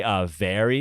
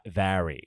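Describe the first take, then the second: First: Said in the usual way. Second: "vary" with a wide open a, like "vary"; New Yorker saying "vary". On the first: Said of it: "the way that New Yorkers say". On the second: Shown as a demonstration. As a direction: say "very" as "vary", New York style. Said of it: "the way that New Yorkers say, uh, very".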